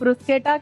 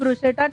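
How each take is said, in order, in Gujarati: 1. વચ્ચેના વ્યંજનો 'sk' અવાજ છે. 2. વચ્ચેનો વ્યંજન 'sh' અવાજ છે. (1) "ફોરેન કન્ટ્રીઝમાં એને બ્રુસ્કેટા કહેવામાં આવે છે" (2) "ઇન્ડિયામાં આપણે બ્રુશેટા કહીએ છીએ"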